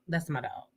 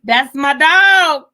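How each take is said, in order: First: Said in the usual way. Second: Very loud, high, stretched-out holler; mock proud shout, long final word; hollered catchphrase. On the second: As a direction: belt it out slow like folks bragging. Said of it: "You know when they say".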